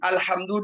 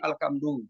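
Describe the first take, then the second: First: The middle consonant is an h sound. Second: The middle consonant is a k sound. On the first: The speaker calls it right. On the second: The speaker calls it wrong.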